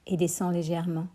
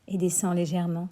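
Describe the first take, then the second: No difference in how they are said.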